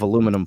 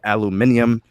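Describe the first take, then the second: First: It is said the American way, four syllables. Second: It is said the British way, five syllables.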